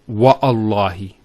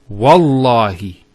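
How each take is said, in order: First: A glottal stop separates wa from allahi. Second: Wa runs straight into the l sound. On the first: The speaker calls it wrong. "not Wa'allahi" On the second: The speaker calls it right. "it's Wallahi"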